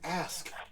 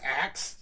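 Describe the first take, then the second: First: The word is pronounced like 'ask'. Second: The word is pronounced like 'aks'. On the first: The speaker calls it right. "it's ask. There's a K in there" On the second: The speaker calls it wrong. "instead of saying axe"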